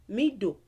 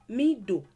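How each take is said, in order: Both takes have the same delivery.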